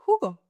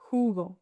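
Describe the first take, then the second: First: Said in the usual way. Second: JUGO slower and lower, with a breathy H start; slow, low "Jugo" for learners; drawn-out demonstration. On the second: Shown as a demonstration. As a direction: stretch the "hoo" of "Jugo". Word repeated slowly.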